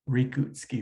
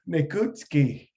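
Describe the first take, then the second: First: The R is pronounced like an English R. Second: The R is pronounced unlike an English R. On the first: The speaker calls it wrong. "avoid saying Rekutski, Rekutski with that English R" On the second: The speaker calls it right.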